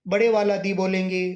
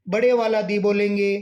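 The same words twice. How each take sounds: Both takes have the same delivery.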